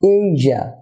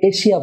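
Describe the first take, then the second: First: The middle consonant is a voiced 'zh' sound. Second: The middle consonant is a voiceless 'sh' sound. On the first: The speaker calls it right. "হবে এইজা" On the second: The speaker calls it wrong. "আমরা এটাকে এশিয়া বলে থাকি, এটা এশিয়া না হয়ে"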